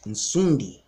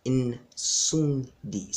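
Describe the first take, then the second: First: Said in the usual way. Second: "Nsundi" drawn out syllable by syllable, N-sun-di; careful pronunciation. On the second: Shown as a demonstration. Teaching viewers who mispronounce it, careful syllable-by-syllable "Nsundi". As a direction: break "Nsundi" into slow separate syllables. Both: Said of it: "Some of you mispronounced that word".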